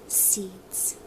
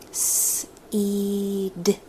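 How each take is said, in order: First: The word is said quickly as one unit. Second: The word is stretched slowly, sound by sound. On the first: "let's say it fast" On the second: "let's slow it right down like a turtle"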